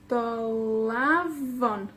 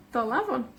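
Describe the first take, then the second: First: Do-LAAA-von, slow; stress on penultimate. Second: Said in the usual way. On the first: Shown as a demonstration. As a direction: draw out the LA of Dolavon, then fall. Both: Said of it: "La penúltima".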